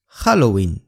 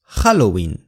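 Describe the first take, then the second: First: The stress is on the first syllable. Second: The stress is on the first syllable.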